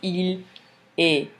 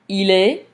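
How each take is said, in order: First: The two words are said as separate units. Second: The two words run together as one unit. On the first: The speaker calls it wrong. "he's not going to separate this in two distinct units" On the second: The speaker calls it right. "we're gonna hear basically"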